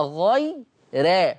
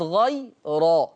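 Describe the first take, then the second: First: غي را said slowly as "ghay-re", light r; thin ra. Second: غي را said slowly as "ghay-ro", full r; heavy ra. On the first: Teacher showing Warsh's tarqiq, را light as "re". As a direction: keep را thin, toward "re". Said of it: "يقرأ ورش بترقيق الراء". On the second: Teacher showing what it is not, را heavy as "ro". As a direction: make را thick, toward "ro". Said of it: "وليست غي را". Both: Shown as a demonstration.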